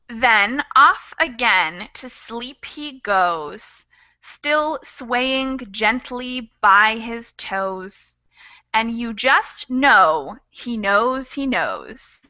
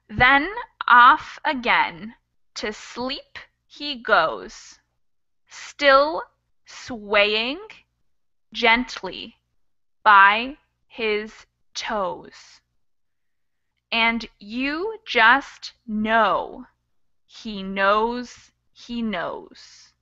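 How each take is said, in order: First: It is read at normal speed. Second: It is read slowly.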